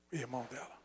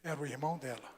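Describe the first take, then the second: First: Near whisper. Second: Grave reveal. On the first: Repeating the reveal. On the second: Revealing the abuser. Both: Real, not acted.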